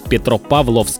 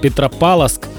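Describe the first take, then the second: First: The 'v' before the 's' is clearly pronounced. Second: The 'v' before the 's' is dropped. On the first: The speaker calls it right. "нужно говорить Петропавловск. Обязательно «ВС»" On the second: The speaker calls it wrong. "все говорят Петропавловск"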